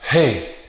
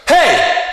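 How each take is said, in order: First: A light shout from the chest only. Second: A powerful shout driven from the abdomen.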